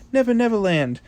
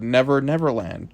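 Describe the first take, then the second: First: Playful high repeat. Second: Said in the usual way. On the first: Shown as a demonstration. Repeating the place name playfully.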